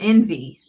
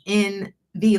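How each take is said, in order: First: It is said as one word, envy. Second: It is said as two letters, N V. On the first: The speaker calls it wrong. "It's not Envy" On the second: The speaker calls it right. "like uh, initials"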